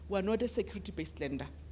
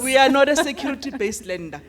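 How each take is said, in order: First: It is said at normal volume. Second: It is said louder and more emphatically.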